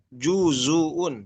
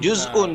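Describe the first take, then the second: First: The z is followed by a u vowel. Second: The z has no vowel after it. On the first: This is another reading tradition's version. "perhatikan domahnya" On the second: This is one reading tradition's version. "dengan dengan sukun"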